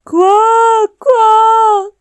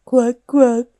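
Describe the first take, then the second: First: Huge, high, drawn-out quacks; overjoyed bear yelling like a duck; bear's shouted quack. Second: Short, louder quacks near usual pitch; joining-in duck quack. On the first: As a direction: bellow the quacks with all your might. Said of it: "با صدای خرسیش بلند فریاد زد". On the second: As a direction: quack along with the ducks, briskly. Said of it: "هم صدا شد". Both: A narrator's reading.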